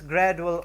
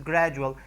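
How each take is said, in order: First: The D before the U sounds like plain D. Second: The D before the U sounds like J. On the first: The speaker calls it wrong. "We don't call this gradual" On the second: The speaker calls it right. "but we would perhaps call this gradual"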